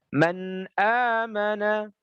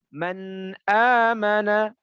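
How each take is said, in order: Both takes have the same delivery.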